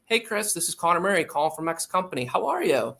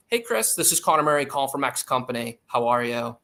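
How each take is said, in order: First: Higher-pitched opener lifting on "How are you?"; eager, questioning cold-call opener, "How are you?" sung upward; upward inflection. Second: Cold-call opener with the pitch falling on "How are you?"; businesslike opener, "X company" and "How are you?" dropping in pitch; downward inflection. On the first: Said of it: "an upward inflecting tone could be like". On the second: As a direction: say "How are you?" as a statement, stepping down at the end. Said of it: "downward inflecting cold call opening can sound". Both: Shown as a demonstration.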